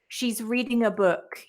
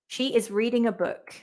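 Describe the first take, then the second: First: 'She is' is shortened to 'she's', said faster. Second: 'She is' is said as two full words.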